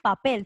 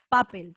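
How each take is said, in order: First: The stress is on the last syllable. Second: The stress is on the first syllable. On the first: The speaker calls it right. "Fuerza de voz en la última" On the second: The speaker calls it wrong. "tú no dices papel"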